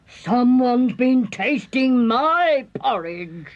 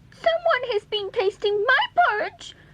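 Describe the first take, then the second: First: It is growled in a medium-pitched voice. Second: It is squeaked in a tiny high voice.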